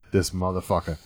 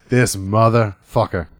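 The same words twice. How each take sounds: First: Low, soft curse to yourself; quiet, lowered grudging realization; retold inner curse. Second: "This motherfucker" slowly, word by word; slow, weighty "This motherfucker"; drawn-out emphatic curse. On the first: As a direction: say it under your breath. Retold inner curse, then repeated slower. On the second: Retold or imitated. Repeats the inner curse for emphasis.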